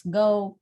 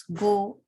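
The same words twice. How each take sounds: First: "go" with a gliding diphthong; British pronunciation. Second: "go" with one pure o vowel; Indian pronunciation. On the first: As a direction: say "go" as "guh-oo" in one syllable. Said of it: "while it's go". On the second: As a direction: say "go" as a steady "goh", no glide. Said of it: "We pronounce go". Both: Shown as a demonstration.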